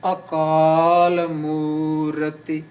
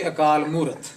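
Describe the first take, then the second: First: Akal Murati very slow, long aa and oo, final i voiced; slow, drawn-out Akal Murati with a clear last i; full vowels sounded. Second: Akal Murat in a quicker, everyday way, stopping on t; final vowel dropped. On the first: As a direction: stretch every vowel of Akal Murati, ending in "ti". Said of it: "what, what is Murati?". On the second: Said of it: "You say Akal Murat". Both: Shown as a demonstration.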